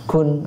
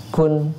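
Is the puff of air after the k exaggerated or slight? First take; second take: slight; slight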